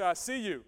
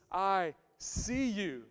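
First: Said in the usual way. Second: "I see you" drawn out slowly; slow sincere "I see you"; slow and tender. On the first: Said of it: "Everybody say". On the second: Shown as a demonstration. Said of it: "empathy says".

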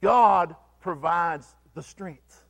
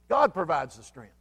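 First: "God provides the strength" slowed, with weight on "God"; deliberate, slow "God provides the strength"; slow stressed God. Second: Said in the usual way. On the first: Shown as a demonstration. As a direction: lean into "God" and take it slowly. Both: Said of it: "preacher repeats the point twice".

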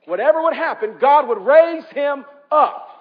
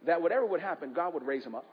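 First: Louder and higher, slowing on raise him up; preacher repeating it with full force; emphatic repeat. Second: Said in the usual way. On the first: Acted. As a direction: drive the line home to the congregation.

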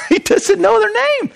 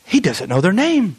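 First: "He doesn't know their name" laughed out, much higher; amused laughing retake. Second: Said in the usual way. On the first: Real, not acted. Repeats line laughing, much higher.

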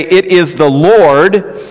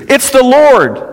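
First: Slow, higher emphatic repeat; drawn-out quote. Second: High exclamation of sudden recognition; excited cry. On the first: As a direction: stretch the words out with weight. Same cry repeated, slowly drawn out. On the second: Disciple's excited cry to Peter. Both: Acted.

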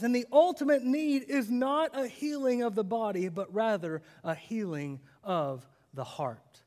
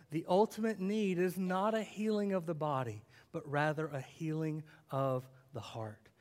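First: Said in the usual way. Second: Put-on softer second pass for the children; soft repeat. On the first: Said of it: "repeats the line". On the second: Shown as a demonstration. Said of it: "repeated line, softer".

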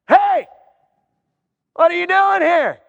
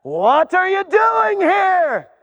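First: A startled gatekeeper demanding answers; heaven's gatekeeper. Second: Higher, slow, drawn-out disbelief; baffled gatekeeper. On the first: Gatekeeper questions a newcomer at heaven. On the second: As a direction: stretch out the bewildered question. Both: Acted.

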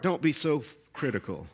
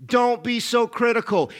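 First: Quiet and low, said gently to the heart; soft inner voice. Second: Said in the usual way. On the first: Acted. Jesus speaking quietly to a listener's heart, softer and lower. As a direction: let it land softly, like a voice within.

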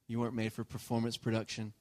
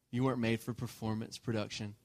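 No difference in how they are said.

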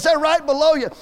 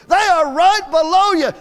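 First: Said in the usual way. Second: Loud, slow, higher yell of right below you; frustrated shout, each word drawn out; retold scream. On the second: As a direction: bellow it into the walkie-talkie. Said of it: "he screams in that walkie-talkie".

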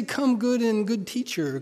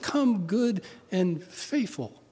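First: Said in the usual way. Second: Slow, deliberate "Come, good and faithful." with weight on faithful; stress on faithful. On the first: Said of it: "it doesn't say". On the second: Shown as a demonstration. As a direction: lean into "faithful", drawing the line out slowly. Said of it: "It just".

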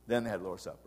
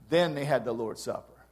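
First: Softer repeat of "Then they had the Lord's Supper", almost to himself; quiet echo. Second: Said in the usual way. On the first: Shown as a demonstration. Preacher to congregation, repeating the point as a quiet aside. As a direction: let the line fall away into a murmur.

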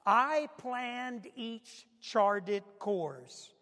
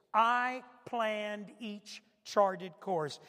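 First: Each word drawn out slowly; deliberate, dragged-out reading; slow emphasis. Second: Repeated slowly for weight; slow, weighty repeat. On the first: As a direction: lean on every word of the line. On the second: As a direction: say it again, drawn out. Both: Shown as a demonstration. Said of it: "Now listen to this next part".

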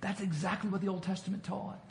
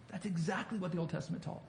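First: Said in the usual way. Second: Softer, faster repeat; a hushed, rushed restatement; quieter quicker echo. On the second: Shown as a demonstration. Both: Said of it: "repeats the line".

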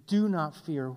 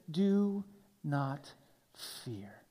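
First: Said in the usual way. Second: Soft breathy whisper, dropping away. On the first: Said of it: "the anthem of God". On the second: Shown as a demonstration. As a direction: breathe it like a secret. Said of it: "this common statement".

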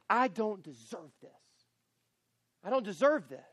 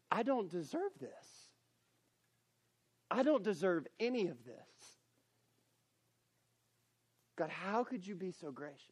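First: Resentful, self-pitying I don't deserve this; bitter complaint. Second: Humbled gratitude. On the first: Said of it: "you say it like this". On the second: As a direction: say I don't deserve this in awed gratitude. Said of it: "you're saying it like this". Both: Shown as a demonstration.

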